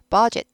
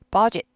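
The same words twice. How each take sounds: The two takes are said the same way.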